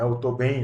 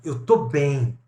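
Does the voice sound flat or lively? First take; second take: flat; lively. First: It is said in a dull, flat tone. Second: It is said in a bright, vibrant tone. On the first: The person is not really fine. "dito dessa forma apagada, sem entonação" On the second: The person really is fine. "dito com um tom brilhante"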